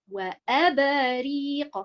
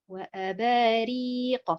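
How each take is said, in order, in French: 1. L'accent tombe sur le hamza et le ra. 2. L'accent tombe sur la syllabe ba. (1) "si je mets euh, l'accentuation sur harakat al-hamza et harakat al-ra'" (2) "L'accentuation, on la met sur quelle haraka? Eh bien, c'est harakat al-ba"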